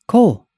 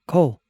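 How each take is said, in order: First: The name is called louder. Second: The name is called softly.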